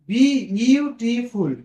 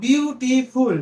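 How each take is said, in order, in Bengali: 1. শব্দটি সিলেবলের মাঝে বিরতি দিয়ে ভেঙে বলা হচ্ছে। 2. শব্দটি এক টানে সাবলীলভাবে বলা হচ্ছে।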